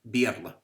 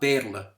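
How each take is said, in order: First: The first vowel glides as ia. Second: The first vowel is a plain single e sound. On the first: This is the Munster (Kerry) pronunciation. The speaker calls it right. "in Kerry, but Bearla" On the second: This is the Connacht and Ulster pronunciation. The speaker calls it wrong. "not Bearla"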